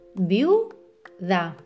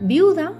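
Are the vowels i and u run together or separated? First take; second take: separated; together. First: The i and u are split into separate syllables. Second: The i and u glide together in one syllable. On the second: "todo junto"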